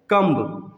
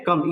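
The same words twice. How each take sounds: First: कम्ब with an audible B after the M; कम्ब as "kum-b", silent B voiced; wrong, B sounded. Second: कम ending on the M; कम with nothing after the M; right, B silent. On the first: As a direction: finish कम्ब on a released "b". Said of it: "इसको लोग क्या पढ़ते हैं". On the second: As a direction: say कम as "kum", lips closing with no B. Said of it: "ये सही sound है". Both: Shown as a demonstration.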